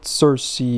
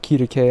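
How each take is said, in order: First: The name is said the common English way. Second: The name is said the original intended way. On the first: "I'm American. It's her name is Cersei" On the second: "or Kirike as I call her"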